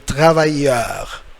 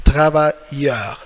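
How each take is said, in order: First: The double L is said as a y sound. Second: The double L is said as a y sound.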